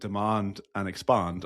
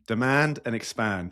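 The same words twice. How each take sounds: First: It is said in a British accent. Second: It is said in an American accent. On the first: The two words do not rhyme. The speaker calls it wrong. "you say it in my accent" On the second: The two words rhyme. The speaker calls it right. "It only works with an American accent"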